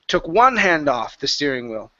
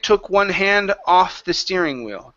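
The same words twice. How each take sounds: First: The word 'one' is pushed with strong emphasis. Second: The word 'one' gets no special emphasis. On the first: The speaker calls it wrong. "So you emphasized here. Okay, pushing on one" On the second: The speaker calls it right. "here we want to say"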